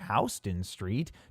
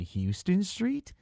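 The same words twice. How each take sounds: First: Houston is said unlike the Texas city name. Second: Houston is said like the Texas city name. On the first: The street is named after a different man. The speaker calls it right. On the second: The street is thought to be named like the Texas city. The speaker calls it wrong.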